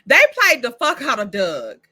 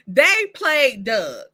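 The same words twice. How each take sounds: First: Said in the usual way. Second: "They played Doug" drawn out slowly, each word weighted; slow emphatic restatement. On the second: Real, not acted. Restating to viewers how Doug got played, slow and emphatic. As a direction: lean hard on it and slow right down.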